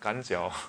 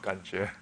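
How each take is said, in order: First: The second syllable sounds like jiao. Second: The second syllable sounds like jue. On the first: This is how a Northeastern speaker says it. "it was 感脚 instead of 感觉, because he's 东北人" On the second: This is the usual pronunciation. "instead of 感觉"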